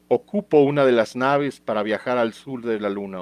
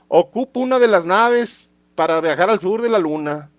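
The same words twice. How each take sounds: First: It is read in a plain, neutral accent. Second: It is read in a Guadalajara accent.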